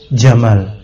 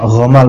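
First: The word begins with a j sound. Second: The word begins with a throaty gh sound. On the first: The speaker calls it right. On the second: The speaker calls it wrong. "bukan gha, ghamal, bukan"

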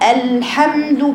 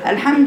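First: The lam and ha sounds are clearly separated. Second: The lam and ha sounds run together. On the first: The speaker calls it right. "بفصل بين اللام والحاء" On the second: The speaker calls it wrong. "كله على بعضه كده سايح على بعضه"

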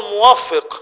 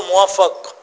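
First: The doubled consonant takes the vowel i. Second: The doubled consonant takes the vowel a. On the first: God is the one who grants success. The speaker calls it right. "الله الموفق مش الله الموفق ... يخليها فاعل" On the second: God is the one who was granted success. The speaker calls it wrong. "مخليها مفعول"

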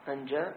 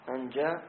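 The two takes are said the same way.

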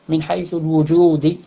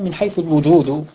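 First: The last word ends with an i vowel. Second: The last word ends with a u vowel. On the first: The speaker calls it wrong. "وأما أن تجر" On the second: The speaker calls it right. "لكن الصواب"

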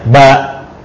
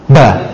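First: The vowel is long with no glottal stop. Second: The vowel is short with no glottal stop. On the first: The speaker calls it right. "kita pilih lahjah yang satunya ba" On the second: The speaker calls it wrong. "bukan begini ba, bukan"

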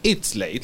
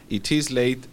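First: It is said contracted into one short syllable. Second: It is said as two separate words, unshortened. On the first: "La forma corta es it's late" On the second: "Sin acortar"

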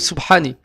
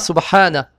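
First: The word ends with an i vowel. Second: The word ends with an a vowel. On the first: The speaker calls it wrong. "ou Subhani, avec la kasra" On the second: The speaker calls it right. "On dira Subhana"

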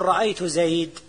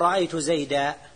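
First: The last word stops on a bare consonant. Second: The last word ends with an -an sound. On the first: This is the Rabi'a dialect's pausal form of the accusative. "ربيعة يقول رأيت زيد ... يقفون على المنصوب بالسكون" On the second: This is the usual pausal form of the accusative. "ربيعة ما يقول رأيت زيدا"

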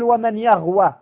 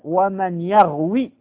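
First: The verb ends with a long 'a' vowel. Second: The verb ends with a long 'ee' vowel. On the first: The speaker calls it wrong. "فلا تقل ومن يغوى" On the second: The speaker calls it right. "وإنما قل ومن يغوي"

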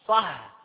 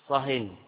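First: The word ends without an added n sound. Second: The word ends with an added n sound. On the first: Stop talking about this topic only. "صح يعني أسكت عن هذا الكلام وتحدث فيه في غيره" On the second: Stop talking entirely. "صهن هذا تنكير، أسكت مطلقا"

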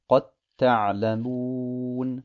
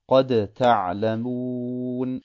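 First: The final d merges into the following t. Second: The final d is pronounced separately before t. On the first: "das Dal wird in das Ta verschmolzen" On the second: "Ursprünglich gesehen wäre es"

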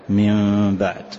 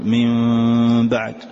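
First: The nasal sound is held for a short time. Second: The nasal sound is stretched out for too long. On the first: The speaker calls it right. "فقط ننطق بحركتين اثنتين" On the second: The speaker calls it wrong. "لا"

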